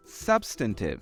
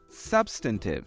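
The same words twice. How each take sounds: First: It is said in an American accent. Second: The same.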